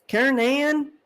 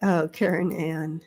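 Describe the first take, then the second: First: "Karen Ann" sung out higher, with a drawled southern lilt; lilting "Karen Ann" pitched up. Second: Said in the usual way. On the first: Shown as a demonstration. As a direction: draw out "Karen Ann" up high, southern style. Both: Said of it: "I can hear it".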